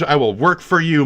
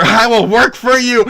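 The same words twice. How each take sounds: First: Said in the usual way. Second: High, loud desperate plea; pleading yell. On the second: Pretend. Streamer begging for voice work, loud pleading yell. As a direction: belt it out, pitch leaping up. Repeats plea much louder and higher.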